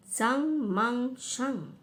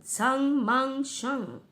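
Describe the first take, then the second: First: Chanted, recite the magic words deliberately; chanted, teacher repeating the witch's spell; slow spell chant. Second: Spell chant. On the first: Retold or imitated. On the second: Acted. Witch casts spell.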